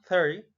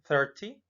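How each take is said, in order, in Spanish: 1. El sonido de la T en medio se omite. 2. El sonido de la T en medio se pronuncia claramente. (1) "igual la T no suena" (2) "también podría ser"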